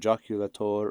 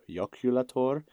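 First: The word begins with a J sound. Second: The word begins with a Y sound. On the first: "the J's as J's" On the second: "or Y's"

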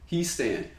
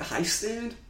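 First: The first syllable sounds like 'he'. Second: The first syllable sounds like 'high'. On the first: The speaker calls it right. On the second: The speaker calls it wrong. "how'd you say it? High stand?"

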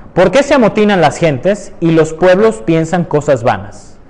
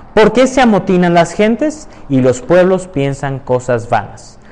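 The two takes are said the same way.

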